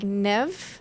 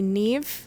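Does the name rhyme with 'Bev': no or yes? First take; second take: yes; no. First: The name sounds like 'never' without the ending. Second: The name has a different vowel, not like 'never'. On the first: This is how the character says it in the book. "how she even says it is like never without the er" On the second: This is the traditional pronunciation of the name. "According to how it traditionally would be pronounced"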